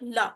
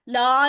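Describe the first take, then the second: First: The vowel is short. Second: The vowel is long. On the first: It means for. The speaker calls it right. "लाम जबर ला" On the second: It means no. The speaker calls it wrong. "ला नहीं कहना, ला कहेंगे तो वो लाम जबर अलिफ ला हो जाएगा"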